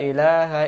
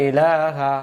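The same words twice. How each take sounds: No difference in how they are said.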